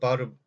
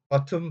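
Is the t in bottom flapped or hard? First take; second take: flapped; hard. First: The middle t is a soft, flapped sound. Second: The middle t is a clear, hard t. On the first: The speaker calls it right. "몸과 몸 사이 팀입니다" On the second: The speaker calls it wrong. "bottom 하지 말고요"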